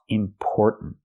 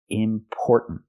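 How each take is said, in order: First: The 'por' vowel sounds like the one in 'store'. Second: The 'por' vowel sounds like the one in 'store'.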